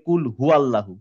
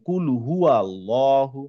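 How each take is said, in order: First: The 'wa' syllable is dropped after 'hu'. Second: The 'wa' syllable is clearly pronounced after 'hu'. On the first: The speaker calls it wrong. "এই ওয়াটার বাদ দিয়ে দিই" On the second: The speaker calls it right. "হুয়ার সাথে একটা ওয়া আছে"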